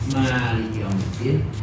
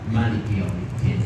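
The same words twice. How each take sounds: First: The first vowel of Maliki is long. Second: The first vowel of Maliki is short. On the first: God is the owner of the Day of Judgment. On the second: God is the king of the Day of Judgment.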